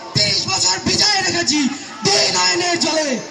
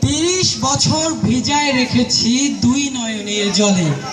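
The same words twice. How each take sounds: First: It is recited loudly and forcefully, like a speech. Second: It is recited in a calm, ordinary way. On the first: "সবাই ভয় পেয়ে গেছে" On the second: "স্বাভাবিকভাবে"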